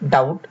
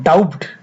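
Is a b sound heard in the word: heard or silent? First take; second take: silent; heard. First: The b sound is silent before the t. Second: The b sound is pronounced before the t. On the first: The speaker calls it right. "বির উচ্চারণ না হয়ে উচ্চারণটি হয়েছে ডাউট" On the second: The speaker calls it wrong. "এখানে হওয়ার কথা ছিল ডাউট"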